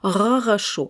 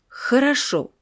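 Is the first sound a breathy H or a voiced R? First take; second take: voiced R; breathy H. First: The first sound is a voiced French-style R. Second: The first sound is a voiceless breathy friction. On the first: The speaker calls it wrong. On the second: The speaker calls it right.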